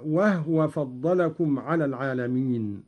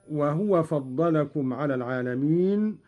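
First: "وهو" said wahwa, with a still ha; vowelless ha. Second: Said in the usual way. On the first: Shown as a demonstration. Teacher demonstrating Qalun's reading, "وهو" with a silent-vowel ha as wahwa. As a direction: close the first syllable of "وهو" on the h. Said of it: "بإسكان الهاء". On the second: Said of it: "قرأ قالون بإسكان الهاء".

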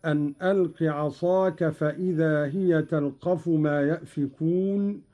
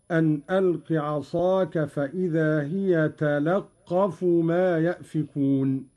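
First: Said in the usual way. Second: "تلقف" said talaqqafu, with a on the lam and doubled qaf; open lam, doubled qaf. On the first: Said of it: "قرأ قالون بفتح اللام وتشديد". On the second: Shown as a demonstration. Teacher showing Qalun's reading, "تلقف" with open lam and doubled qaf. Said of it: "بفتح اللام وتشديد".

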